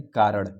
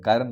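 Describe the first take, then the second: First: "कारण" ending in a flapped retroflex ṛ sound; corrected "कारण", kaa-raṛ; corrected pronunciation. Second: "कारण" ending in an n-like nasal; the version of "कारण" being corrected; rejected pronunciation. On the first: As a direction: curl the tongue on the end of "कारण". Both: Shown as a demonstration. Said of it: "कारण नहीं, कारण".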